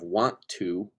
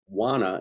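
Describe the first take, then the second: First: Each word is fully and separately pronounced. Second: The words are run together and reduced. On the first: "instead of" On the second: "us doing lazy speak"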